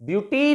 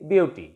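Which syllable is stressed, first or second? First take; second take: second; first. First: The stress is on the second syllable. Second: The stress is on the first syllable. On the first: The speaker calls it wrong. "Beauty नहीं कहेंगे इसे" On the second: The speaker calls it right. "First syllable will be stressed"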